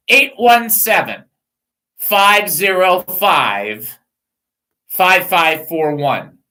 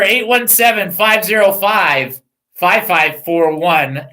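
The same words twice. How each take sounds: First: Slow numbers. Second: Said in the usual way. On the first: Shown as a demonstration. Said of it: "give me that number back". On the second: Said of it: "her number".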